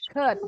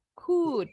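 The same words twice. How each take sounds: First: COULD short, with relaxed lips; unpursed COULD. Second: COULD with pouted lips and a long oo; pursed-lip COULD. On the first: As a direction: say COULD with a short, unrounded vowel, no pout. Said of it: "Jadi nggak perlu monyong". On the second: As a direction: overdo the rounded vowel in COULD, higher pitched. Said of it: "nggak perlu monyong". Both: Shown as a demonstration.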